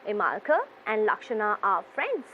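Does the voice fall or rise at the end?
fall. The voice falls at the end. The speaker calls it right. "It will be going down"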